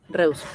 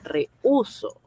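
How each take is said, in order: First: E and u merge; stress falls on e. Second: The u is stressed, separate from e. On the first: This is how the word reads without the written accent. The speaker calls it wrong. "así como está, dice reuso" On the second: This is the word meaning I refuse. The speaker calls it right. "la U tenga esa fuerza que le permita separarse de la E"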